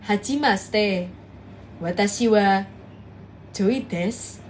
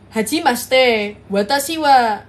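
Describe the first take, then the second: First: Lower, slow Japanese intro, Indonesian style; Indonesian doing Japanese. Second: Thick Japanese accent. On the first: Retold or imitated. Streamer mimics the old trend of Indonesians speaking Japanese, low and slow. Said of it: "orang Indo ngomong pakai bahasa Jepang". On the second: Shown as a demonstration. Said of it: "medoknya ngajak berantem".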